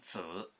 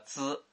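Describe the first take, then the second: First: The word has a falling-rising tone. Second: The word has a high level tone. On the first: It means to slander. "它要是读三声子" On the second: It means to estimate or measure. "这个资读一声的时候"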